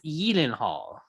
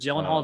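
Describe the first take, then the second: First: The name is pronounced with Swedish sounds. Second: The name is pronounced with anglicized sounds. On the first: The speaker calls it right. "It's in Swedish. It's Gyllenhaal" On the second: The speaker calls it wrong. "That's not actually how you pronounce Gyllenhaal, but Gyllenhaal just sounds better"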